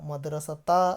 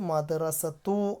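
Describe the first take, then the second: First: The word ends in the vowel a. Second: The word ends in the vowel u. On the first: "മദ്റസത്ത അല്ല വരിക" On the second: "മദ്റസത്തു അല്ല വരിക"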